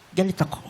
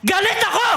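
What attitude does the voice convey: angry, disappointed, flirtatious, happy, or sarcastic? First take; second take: disappointed; angry. First: The voice sounds disappointed. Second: The voice sounds truly angry. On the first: "yung galit ka ng ah, disappointed?" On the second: "yung galit ako ng galit ka talaga?"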